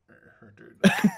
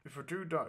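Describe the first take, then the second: First: Talking with the lip hidden; lip tucked in. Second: Said in the usual way. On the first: Shown as a demonstration. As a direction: tuck the lip under the teeth. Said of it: "I'm gonna talk like this".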